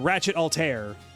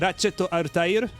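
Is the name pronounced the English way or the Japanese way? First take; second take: English; Japanese. First: The name is said with an English pronunciation. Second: The name is said with a Japanese pronunciation. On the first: "in English, they pronounce her name as" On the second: "in Japanese is called"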